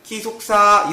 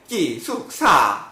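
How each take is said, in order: First: The pitch stays level throughout. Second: The pitch dips down then rises. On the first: "일성조는 기숙사" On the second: "호 이게 물음표인데 기숙사 이렇게 돼야 되는"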